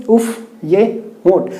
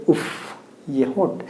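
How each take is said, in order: First: Said in the usual way. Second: Soft, low, swooning उफ, ये होंठ; admiring sigh. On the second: Shown as a demonstration. Teacher acts out swooning over lips, softly. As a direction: sigh उफ over someone's lips, much softer. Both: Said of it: "तो हम लोग क्या कहेंगे?".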